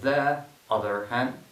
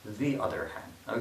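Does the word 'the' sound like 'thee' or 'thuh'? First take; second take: thuh; thee. First: 'The' is said with a short uh vowel. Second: 'The' is said with a long ee vowel. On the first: The speaker calls it wrong. "instead of saying the other hand" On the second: The speaker calls it right. "E is easier to pronounce in this case because of a"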